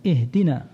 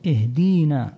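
First: Said in the usual way. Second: اهدينا with a long ee after the dal, "ihdeena"; added ya. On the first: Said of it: "ومثله إضافة حرف الياء في قول الله". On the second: Shown as a demonstration. Teacher imitating a misreading for listeners, اهدينا said "ihdeena". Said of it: "إضافة حرف الياء".

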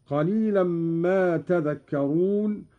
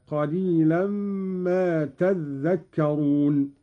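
First: Said in the usual way. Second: تذكرون said "tadhdhakkaroon" with ذ doubled; doubled dhal. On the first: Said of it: "قرأ قالون بتشديد الذال". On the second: Shown as a demonstration. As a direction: lean on a held, geminated ذ in تذكرون. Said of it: "بتشديد الذال هكذا".

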